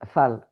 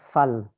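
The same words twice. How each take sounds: First: The vowel sounds like an open 'a'. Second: The vowel sounds like an open 'a'.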